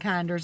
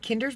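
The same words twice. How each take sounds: First: The first syllable does not sound like 'kin'. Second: The first syllable sounds like 'kin'. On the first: The speaker calls it wrong. "I was saying it wrong when I was saying Kinder's" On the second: The speaker calls it right. "It's like kinfolk"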